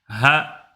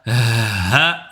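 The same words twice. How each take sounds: First: The letter is articulated moderately, without exaggeration. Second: The letter is articulated in an exaggerated way. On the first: The speaker calls it right. "n'exagère sur aucune lettre" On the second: The speaker calls it wrong. "Ne dis pas ha"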